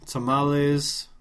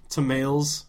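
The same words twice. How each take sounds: First: TAMALES as tuh-MAH-lays, drawn out; slow tamales with an "ah" and final "lays"; Spanish-style pronunciation. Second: TAMALES as tuh-MAILS, two syllables; anglicized mispronunciation. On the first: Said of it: "I get this". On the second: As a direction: rhyme the end of tamales with "mails". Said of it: "would you really say that?". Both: Shown as a demonstration.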